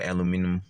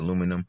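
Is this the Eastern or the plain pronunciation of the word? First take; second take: Eastern; plain. First: It is said the way Eastern speakers say it. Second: It is said in the plain, usual way.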